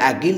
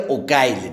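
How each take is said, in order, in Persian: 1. این نام یک i بلند دارد: Aqil. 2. این نام یک u و ay دارد: Uqayl. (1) "بر وزن فعیل" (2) "یکی هم مصغر"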